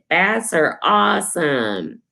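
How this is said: It is said in an excited tone.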